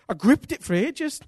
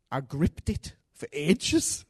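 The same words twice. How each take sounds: First: Louder emphatic restatement; emphatic repeat. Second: Drawn out, said slowly; slow retelling. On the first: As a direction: punch it the second time, louder. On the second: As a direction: let each word hang, slowly. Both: Shown as a demonstration.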